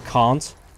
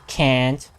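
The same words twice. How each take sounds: First: It is said with a British-sounding broad vowel. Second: It is said with a Southern American flat vowel. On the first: "the way I say can't" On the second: "I officially give up on the southern accent"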